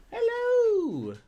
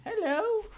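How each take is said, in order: First: Very high cooing hello that falls away; a drawn-out, whiny falling coo to the puppy; high crying-style hello to the dog; dog greeting. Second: Very high cooing hello with a rising end; a lifted, questioning coo to the puppy; high sing-song hello to the dog; dog greeting. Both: Real, not acted.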